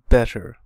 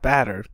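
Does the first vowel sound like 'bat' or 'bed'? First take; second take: bed; bat. First: The first vowel sounds like the vowel in bed. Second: The first vowel sounds like the vowel in bat. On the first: The speaker calls it right. "Like you're saying bed" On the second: The speaker calls it wrong. "Not batter"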